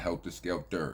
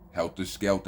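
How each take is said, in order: First: The phrase ends with an 'er' sound. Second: The phrase ends with an open 'ah' sound. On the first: The speaker calls it wrong. "not E R" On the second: The speaker calls it right. "It's A H, not E R"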